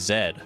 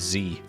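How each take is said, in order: First: The letter is said the non-American way. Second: The letter is said the American way. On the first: This is how most countries say it. "ninety-nine point nine percent of all countries in the world say" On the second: This is how the United States says it. "And then the United States says"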